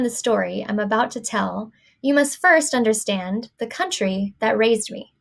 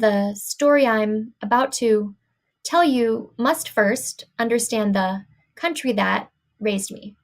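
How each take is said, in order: First: Pauses fall between natural groups of words. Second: Pauses break up words that belong together. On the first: The speaker calls it right. "the way it should be read, the good way here" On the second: The speaker calls it wrong. "reading this sentence here with the impossible chunks"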